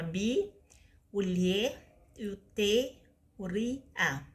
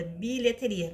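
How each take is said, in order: First: "bi, o lhe, o te, o ri, a" with a pause between pieces; syllable by syllable. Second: Said in the usual way. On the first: Shown as a demonstration. Teacher dividing bilheteria for pupils, "bi, o lhe, o te, o ri, a" spaced out. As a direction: list the syllables one at a time: "bi", "lhe", "te", "ri", "a". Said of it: "vai ficar assim". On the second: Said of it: "da seguinte forma".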